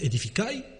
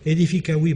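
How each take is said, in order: First: The v sound before the final vowel is dropped. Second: The v sound before the final vowel is pronounced. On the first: It reads as early Romance. "si je prononce Edificai, c'est du roman" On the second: It reads as Latin. "je vous défie de dire si c'est du latin ou du roman"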